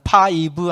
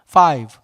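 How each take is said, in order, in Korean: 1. 이 단어는 세 음절로 발음돼요. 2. 이 단어는 한 음절로 발음돼요. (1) "five 하면 세 음절이 되기 때문에 저건 영어가 아니죠" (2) "five는 한 음절이잖아요. one single syllable"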